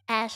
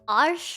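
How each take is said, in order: First: The word is said without an R sound. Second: The word is said with an R sound.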